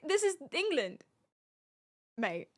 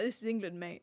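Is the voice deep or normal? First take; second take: normal; deep. First: It is said in a normal voice. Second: It is said in a much deeper voice.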